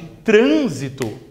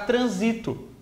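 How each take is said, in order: First: The stress is on the first syllable. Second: The stress is on the second syllable. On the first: A noun meaning traffic. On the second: A verb meaning to move through.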